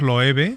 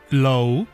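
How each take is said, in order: First: The name has a Spanish pronunciation. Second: The name has an American English pronunciation. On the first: "nosotros lo pronunciamos Loewe" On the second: "como se pronuncia en Estados Unidos"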